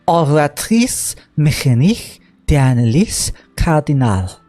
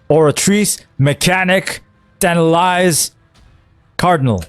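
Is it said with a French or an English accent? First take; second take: French; English. First: It is said with a French accent. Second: It is said without a French accent.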